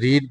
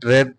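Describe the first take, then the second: First: The vowel is long, like in 'reed'. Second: The vowel is short, like in 'red'. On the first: This is the present form. "ফর্মটা রিড স্পেলিংটা ঠিকই আছে" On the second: This is the past or past participle form. "But উচ্চারণটা হবে রেড"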